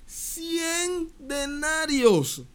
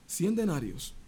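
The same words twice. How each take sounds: First: Very slow, high stress on cien; slow emphatic. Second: Said in the usual way. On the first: Acted. Preacher mocks the small debt, drawn out slow and high.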